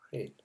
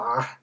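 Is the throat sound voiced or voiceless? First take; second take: voiceless; voiced. First: The throat sound is made without voicing. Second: The throat sound is made with voicing. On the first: The speaker calls it wrong. "if you did it without voicing, it would be something like" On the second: The speaker calls it right. "you need the voicing to make that noise"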